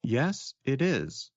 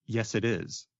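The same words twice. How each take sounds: First: Said in the usual way. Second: "yes, it is" linked with no break; words blended together. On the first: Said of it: "maybe I should say". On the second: Shown as a demonstration. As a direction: run "yes, it is" into one word. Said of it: "Or maybe I should say".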